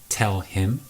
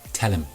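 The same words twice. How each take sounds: First: The h sound in him is pronounced. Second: The h sound in him is dropped. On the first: "tell him will become" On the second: "Often H sounds disappear as well"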